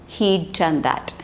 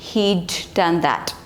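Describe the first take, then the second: Both takes have the same delivery.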